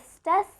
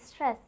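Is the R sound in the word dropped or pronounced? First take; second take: dropped; pronounced. First: The R sound after the first consonants is dropped. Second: The R sound after the first consonants is pronounced. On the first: The speaker calls it wrong. "instead of stress" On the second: The speaker calls it right. "I'm telling stress"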